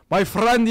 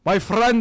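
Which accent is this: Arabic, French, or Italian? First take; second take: Arabic; Arabic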